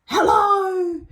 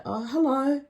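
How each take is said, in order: First: High, loud mock holler; retold excited yell. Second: Higher-pitched, restrained hello; polite greeting. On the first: Sleaze spotting her in the queue, excited yell. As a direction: imitate his booming high hello. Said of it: "he yells out". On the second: Retold or imitated. Dancer to a man she barely looked at, polite. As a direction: politely greet someone you barely want to see. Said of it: "but politely I say".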